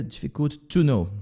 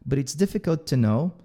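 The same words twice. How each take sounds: First: "to" said as a full stressed "too"; wrong strong TO. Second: "to" reduced to a quick weak "tuh". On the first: Teacher shows what to avoid, over-strong "to". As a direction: hit "to" with a full vowel in "difficult to know". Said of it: "Não fica difficult to know". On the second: Teacher models the phrase for learners, weak "to". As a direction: glide fast over "to" in "difficult to know". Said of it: "esse to aqui também é bem fraquinho". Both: Shown as a demonstration.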